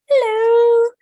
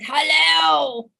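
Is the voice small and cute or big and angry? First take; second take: small cute; big angry. First: It is said in a small, cute voice. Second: It is said in a big, angry voice.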